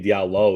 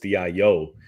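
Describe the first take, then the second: First: The double L is sounded as an L. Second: The double L is sounded as a Y. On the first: The speaker calls it wrong. "I'm not gonna say Diallo" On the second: The speaker calls it right. "it's Dio. We all know from Spanish class that double L is s- pronunciation with a Y"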